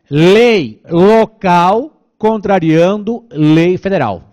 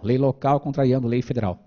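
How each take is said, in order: First: It is said slowly. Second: It is said at normal speed.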